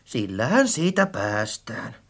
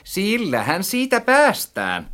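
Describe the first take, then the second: First: Low, soft, offhand remark; casual resolve. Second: High, spiteful echo; nasty mockery. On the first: Friend settles on buying anew, casually. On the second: Narrator echoes friend's words back, maliciously. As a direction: parrot it back meanly, pitched high. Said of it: "sanoin entistä häijymmin". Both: A narrator's reading.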